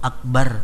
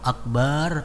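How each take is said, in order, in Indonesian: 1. Vokal setelah 'b' pendek. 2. Vokal setelah 'b' dibaca panjang. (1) "artinya itu maha besar" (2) "kalau kita panjang"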